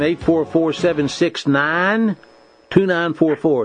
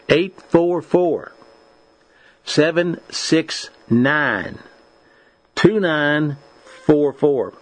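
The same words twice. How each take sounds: First: The number is said fast. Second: The number is said slowly.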